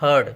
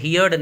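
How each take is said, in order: First: The vowel sounds like the word 'her'. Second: The vowel sounds like the word 'here'. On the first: The speaker calls it right. "हर्ड पढ़ते हैं इसको" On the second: The speaker calls it wrong. "हियर्ड नहीं"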